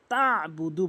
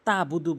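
First: তাবুদু with a throaty ayn after ta; slow তাবুদু with pressed ayn; correct ayn. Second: তাবুদু with a plain short ta; ordinary open a in তাবুদু; mispronounced without ayn. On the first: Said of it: "বলতে হবে". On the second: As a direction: say তাবুদু skipping the throat sound. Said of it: "আইনের উচ্চারণ আমরা বাদ দিয়ে ফেলি". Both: Shown as a demonstration.

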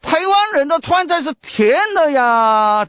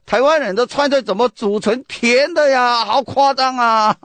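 First: Higher, louder Sichuanese complaint with stress on 湾; mock a Sichuan tourist protesting the sweet food; loud Sichuan dialect. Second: Higher, louder Sichuanese grumble with stress on 湾, slowing at the end; loud Sichuan dialect. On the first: (用四川话大声抱怨) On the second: Retold or imitated. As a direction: imitate a tourist's loud disbelief in Sichuanese. (用四川话大声质问) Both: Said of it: "这个用四川话很大声讲啊".

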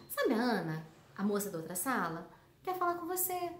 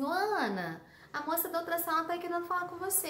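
First: "a moça da outra sala" dropped low as an aside explaining who "Ana" is; appositive explaining tone. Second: "Ô, Ana" called out as a call, then the rest quick and rising; vocative call. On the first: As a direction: tuck the explanation in low, like a parenthesis. ("a moça da outra sala" mais grave, como explicação) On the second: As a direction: call Ana, then rattle off the message fast. ("Ana" como chamado, o resto rápido) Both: Shown as a demonstration. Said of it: "dependendo da entonação".

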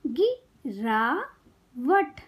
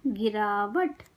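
First: गिरावट very slowly in three separate parts; syllable by syllable. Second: Said in the usual way. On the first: Shown as a demonstration. Teacher teaching kids to read, syllables apart. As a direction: break गिरावट into गि - रा - वट. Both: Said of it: "शब्द पढ़ना सिखाऊंगी".

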